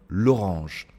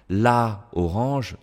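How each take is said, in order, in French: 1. L'article perd sa voyelle et se lie au nom. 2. L'article garde sa voyelle devant le nom.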